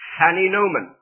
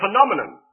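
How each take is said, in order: First: The middle syllables sound like 'nin-o-men'. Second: The middle syllables sound like 'nom-e-non'. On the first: The speaker calls it wrong. "he pronounced as phaninomen" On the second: The speaker calls it right. "should have been a phenomenon"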